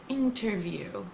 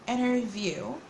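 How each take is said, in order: First: The T sound after the N is clearly pronounced. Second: The T sound after the N is dropped. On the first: The speaker calls it wrong. "they don't say this word interview" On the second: The speaker calls it right. "They say it interview"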